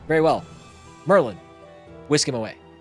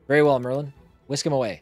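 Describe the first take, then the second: First: The break comes before the word Merlin. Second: The break comes after the word Merlin.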